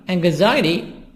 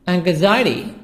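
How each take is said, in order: The two takes are said the same way.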